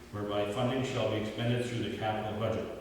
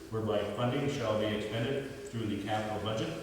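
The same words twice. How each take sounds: Both takes have the same delivery.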